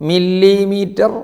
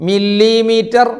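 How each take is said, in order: No difference in how they are said.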